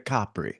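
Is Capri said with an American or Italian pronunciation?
Italian. It is said with an Italian pronunciation. The speaker calls it right. "you're going to Capri"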